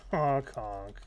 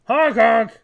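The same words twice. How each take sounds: First: Said in the usual way. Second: Loud, high clown honk; silly clown. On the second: Acted. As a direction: blare it like a clown horn. Clown taunt louder.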